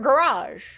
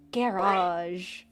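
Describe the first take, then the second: First: It is said in a Southern accent. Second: It is said in an English accent.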